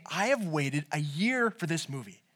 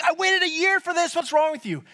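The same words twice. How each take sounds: First: Low, soft, measured restatement; slow, deliberate quote. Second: High, indignant mock scream; screaming in anger. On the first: Retold or imitated. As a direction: say it slowly and softly, weighing each word. Slow restating of the ranted line. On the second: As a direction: rant in a high, aggrieved voice. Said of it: "Screaming, yelling, swearing at him".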